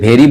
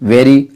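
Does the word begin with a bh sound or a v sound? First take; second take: bh sound; v sound. First: The word begins with a breathy bh sound. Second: The word begins with a v sound. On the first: "बहुत से लोग जो हमारे बिहार के हैं ... उसे भेरी बोलते हैं" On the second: "हम लोग वेरी बोलते हैं"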